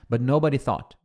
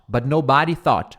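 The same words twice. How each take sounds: First: The stress is on the first syllable. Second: The stress is on the second syllable. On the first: The speaker calls it right. "Agora o jeito correto" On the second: The speaker calls it wrong. "Olha como soa melhor do que but nobody thought"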